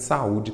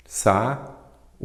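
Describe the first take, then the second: First: Said in the usual way. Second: "Sa-u-de" broken as sa, ú, de with long pauses; split into syllables. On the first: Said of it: "saúde tem acento". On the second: Shown as a demonstration. Teacher giving a second example, "Sa-u-de" syllable by syllable. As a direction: say "Sa-u-de" one isolated syllable at a time. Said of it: "Sempre dou esses exemplos".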